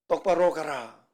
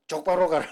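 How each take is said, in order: First: Said in the usual way. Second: Jeolla dialect 쪽바로 with ㅉ for 똑. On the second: Shown as a demonstration. (전라도 사투리로 쪽바로) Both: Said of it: "사투리로".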